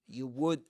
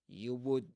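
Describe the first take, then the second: The two takes are said the same way.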